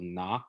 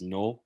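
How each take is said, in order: First: The vowel is an open unrounded ah. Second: The vowel is a rounded ah sound. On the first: "words like, um, for example, nak, which means medicine" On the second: "get pronounced as nok"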